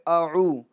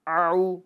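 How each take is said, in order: First: It starts with a light glottal stop. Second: It starts with a squeezed throat sound. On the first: The speaker calls it right. "अब अ ये हमज़ा है" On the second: The speaker calls it wrong. "तो ये गलत होगा"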